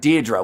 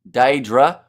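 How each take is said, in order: First: The first syllable sounds like 'deer'. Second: The first syllable sounds like 'day'. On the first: The speaker calls it right. "it sounds like Deirdre" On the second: The speaker calls it wrong. "I thought it was pronounced Daedra"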